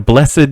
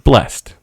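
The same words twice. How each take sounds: First: The word has two syllables, ending in -ed. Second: The word has one syllable, with no -ed. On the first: The speaker calls it wrong. "why why are you saying it like that?" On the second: The speaker calls it right. "It's blessed"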